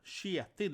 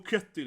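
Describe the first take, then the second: First: The name is said with a Norwegian pronunciation. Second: The name is said with an American pronunciation. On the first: The speaker calls it right. "his name actually is Kjetil, you know, Kjetil, that K sound" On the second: The speaker calls it wrong. "So everyone in America, oh Ketil"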